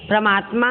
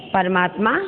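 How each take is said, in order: First: परमात्मा said as "pra-maatma"; mispronounced परमात्मा. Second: Said in the usual way. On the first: Shown as a demonstration. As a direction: run p and r together at the start of परमात्मा. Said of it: "परमात्मा अशुद्ध है". (परमात्मा को गलत "प्रमात्मा" बोलना) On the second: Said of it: "शुद्ध".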